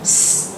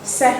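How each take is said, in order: First: The consonant is said alone with no vowel. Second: The consonant is followed by an extra vowel sound. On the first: The speaker calls it right. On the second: The speaker calls it wrong.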